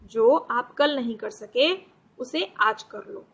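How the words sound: There is a pause after सके. The speaker calls it right. "अब हम ऐसे पढ़ते हैं"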